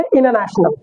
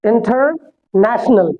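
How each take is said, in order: First: The t after the n is dropped. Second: The t after the n is pronounced. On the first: "टी आर को गायब भी कर दिया जाता है" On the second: "अमेरिकन के हिसाब से"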